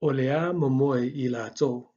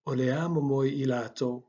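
First: Olea momoi ilato said slowly, each word spelt out; Samoan example sentence. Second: Said in the usual way. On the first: Shown as a demonstration. Teacher slowly modelling Olea momoi ilato for learners. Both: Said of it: "second example is".

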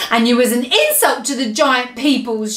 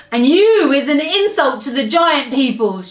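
First: Restrained shouted insult; lightly shouted retort; mild shout. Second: Higher, forceful giant shout; shouted insult. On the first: Giant insults the BFG, mildly shouting. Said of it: "shouted the". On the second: Giant insults the BFG, shouting. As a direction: shout it with heavy weight on YOU. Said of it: "shouted the blood bottler". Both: A narrator's reading.

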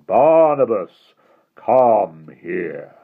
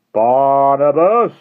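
First: Slow, mild hint of a hypnotic summons; hypnotic monotone. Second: High, loud, slow drawn-out call of a name. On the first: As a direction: lull him toward you, slow and even. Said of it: "The voice dropped lower to a hypnotic monotone". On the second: Acted. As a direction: stretch the name out, summoning. Hastings calls the boy.

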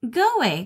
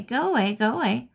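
First: Much higher and louder, jumpy chatter; chittering monkey. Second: Chittering monkey. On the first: Monkey shooing the dog away, high loud chittering. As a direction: squeak it out like a frantic monkey. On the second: Monkey repeating itself at the dog, high bouncy chittering. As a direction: keep chattering, easing off. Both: A narrator's reading. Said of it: "chittered the monkey".

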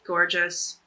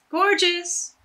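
First: Said in the usual way. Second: Gorgeous! jumps much higher and louder; delighted exclamation. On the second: Real, not acted. Admiring the tied scarf, excited high exclaim. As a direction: burst out with real delight.

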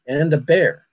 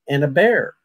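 First: Put-on light New England accent on bear; a lightly imitated New England accent; heavy New England accent. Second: Said in the usual way. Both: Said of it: "in a very heavy New England accent".

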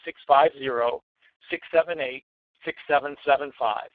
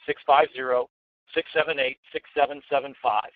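First: Said in the usual way. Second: Each digit said slowly and clearly. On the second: Shown as a demonstration. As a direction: spell out every number deliberately. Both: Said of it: "Let me say it again slowly".

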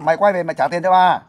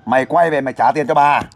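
First: Higher-pitched, more insistent demand; louder-sounding demand. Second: Firm demand at a moderately raised volume; demonstrated loud demand. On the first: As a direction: push the call out higher to show how. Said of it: "nói to lên". (đòi nợ giọng cao, thúc ép) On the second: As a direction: model a stern call to come back. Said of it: "cô nói lớn tiếng lên". (đòi nợ dõng dạc, làm mẫu) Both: Shown as a demonstration.

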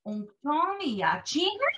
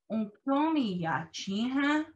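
First: "Unktomi yachin ha" slow and high, soaring up at the end; wrong question intonation. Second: "Unktomi yachin ha" very slow, with a gentler lift into "ha"; demonstrated correct intonation. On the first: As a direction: exaggerate the wrong upturn on "ha". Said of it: "point out that this is wrong". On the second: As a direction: stretch it out and keep the end less steep. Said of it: "and that this is right". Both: Shown as a demonstration.

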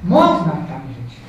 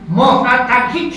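First: "Można tak żyć" lower, slow and falling with certainty; firm answer. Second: "Można tak żyć" asked slowly, rising at the end; rising question. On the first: Preacher answering his own question to the congregation, firm falling statement. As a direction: settle the question with a calm, sure answer. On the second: Preacher asking the congregation whether one can live so, rising question. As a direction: put it to the church as an open question. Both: Shown as a demonstration. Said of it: "czy nie można tak żyć?".

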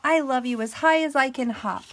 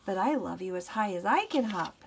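First: Higher, loud little-hare voice; light mock glee, pitched up; gleeful little hare. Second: Understated smile in the big hare's reply; smiling big hare. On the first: Little hare hopping for big hare, gleeful little voice. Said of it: "laughed Little Nut Brown Hare". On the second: Big hare answering the little one's hop, mild smile. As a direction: answer more evenly, with a smile. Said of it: "smiled Big Nut Brown Hare". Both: A narrator's reading.

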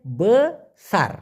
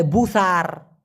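First: বেসার with e in first syllable, be-sar; correct pronunciation. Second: বুসার with u in first syllable, common mistake; wrong pronunciation. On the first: Teacher correcting learners to proper বেসার. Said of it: "মূলত সঠিক উচ্চারণটা হবে বেসার". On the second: Teacher showing learners the wrong বুসার. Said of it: "না, মূলত সঠিক উচ্চারণটা হবে বেসার". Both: Shown as a demonstration.

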